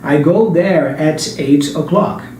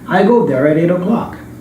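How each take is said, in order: First: The words are said separately without linking. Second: The words run together with linked sounds. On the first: "it's not really wrong to speak like this" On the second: "a native speaker would link the sounds there"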